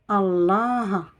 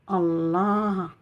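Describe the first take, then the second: Both takes have the same delivery.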